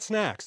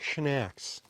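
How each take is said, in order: First: The word begins with a plain s sound. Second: The word begins with a sh sound. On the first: "They're not snacks" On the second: "they're schnacks"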